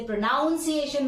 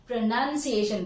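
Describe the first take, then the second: First: प्रोनाउंसिएशन as pro-NOUN-see-ay-shun; "ow" vowel in प्रोनाउंसिएशन's second syllable; wrong "noun" form. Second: प्रोनंसिएशन as pro-NUN-see-ay-shun; short "uh" in प्रोनंसिएशन's second syllable; correct "nun" form. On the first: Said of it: "इसे प्रोनाउंसिएशन मत बोलना". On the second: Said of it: "प्रोनंसिएशन बोलना". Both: Shown as a demonstration.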